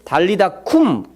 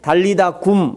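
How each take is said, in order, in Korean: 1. 마지막 음절은 된소리로 시작합니다. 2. 마지막 음절은 예사소리로 시작합니다. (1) "원어는 달리다쿰, 좀 굼이 좀 더 세게 발음이 되는 것 같아요" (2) "우리나라 말에는 달리다굼 이렇게 기록되어 있는데"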